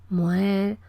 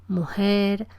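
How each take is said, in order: The two takes are said the same way.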